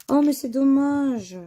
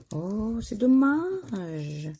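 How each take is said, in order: First: Sharp "oh" of disappointment; a quick, bright cry of regret; higher, louder dismay. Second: Slow, dragged-out sigh of regret; long, slow "c'est dommage"; drawn-out disappointment. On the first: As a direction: exclaim the letdown, up and out. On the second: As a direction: let the letdown stretch out slowly. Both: Real, not acted. Disappointed at missing letter.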